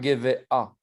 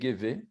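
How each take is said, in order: First: An extra 'a' sound is said at the end. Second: No extra sound is said at the end. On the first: The speaker calls it wrong. "On ne dit pas Gévé A" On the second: The speaker calls it right. "c'est Gévé"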